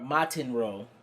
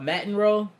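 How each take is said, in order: First: The name is said with each syllable enunciated. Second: The name is said quickly and loosely.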